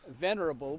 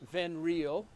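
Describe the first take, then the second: First: The word is pronounced in its standard form. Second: The word is mangled to sound like 'venereal'.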